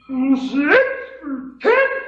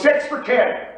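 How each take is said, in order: First: It is said hesitantly, like a question. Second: It is said loudly and confidently.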